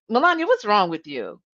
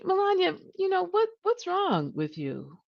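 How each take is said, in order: First: Sharp, accusing tone; harsh accusing question. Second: Gentle concerned version. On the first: Retold or imitated. Manager confronting Melania in a one-on-one, sharply accusing. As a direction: snap the question at her like an accusation. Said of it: "did Katie really say it like that". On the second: Shown as a demonstration. Manager asking Melania gently, out of real concern. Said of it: "Or did Katie say".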